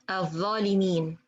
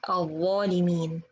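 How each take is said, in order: First: The first consonant is a plain th sound. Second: The first consonant is a heavy emphatic sound. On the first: The speaker calls it wrong. "they say" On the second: The speaker calls it right. "instead of"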